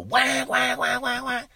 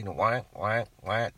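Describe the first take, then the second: First: Loud imitated duck quacks; duck call honks. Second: Duck call honks. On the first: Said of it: "those loud call". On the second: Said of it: "just some soft quack". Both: Shown as a demonstration.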